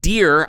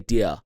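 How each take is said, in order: First: The final R sound is clearly pronounced. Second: The final R sound is dropped. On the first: "instead of saying dear" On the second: "I'd say dear like that"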